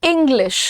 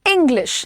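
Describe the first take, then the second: The two takes are said the same way.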